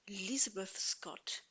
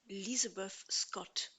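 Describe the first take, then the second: Both takes have the same delivery.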